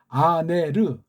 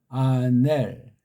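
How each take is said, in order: First: The word ends with an extra short vowel syllable. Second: The word ends on a closing l consonant. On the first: This is the Greek way of saying it. "헬렌말 발음법이고" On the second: This is how some people hear or say it. "그렇게 발음하는 것처럼 들리고"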